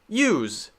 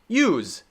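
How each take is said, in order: Both takes have the same delivery.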